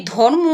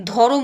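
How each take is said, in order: First: Said in the usual way. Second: ধরম with a vowel between র and ম; two-syllable dho-rom for ধরম; eased pronunciation. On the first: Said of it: "উচ্চারণের সুবিধার জন্য অনেকে". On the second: Shown as a demonstration. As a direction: split the cluster, saying ধরম as dho-rom. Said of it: "ধরম উচ্চারণ করে".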